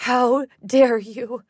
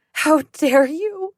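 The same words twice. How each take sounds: First: Slow, loud seething fury; rage. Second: Slow, higher, louder furious cry; rising rage. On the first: Mother confronting her daughter's attacker, slow loud rage. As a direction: spit each word out slowly in rage. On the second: Mother confronting her daughter's attacker, higher louder fury. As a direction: let the rage break loose. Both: Acted. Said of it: "her face contorted in rage".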